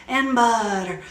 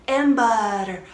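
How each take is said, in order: Both takes have the same delivery.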